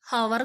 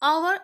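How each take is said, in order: First: The word starts with an h sound. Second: The word starts with a vowel sound. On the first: The speaker calls it wrong. "ഹവർ എന്നല്ല" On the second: The speaker calls it right. "അവർ എന്നാണ് വായിക്കുക"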